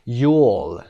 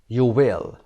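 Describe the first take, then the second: First: It is said as one short contracted syllable. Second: It is said as two full separate words.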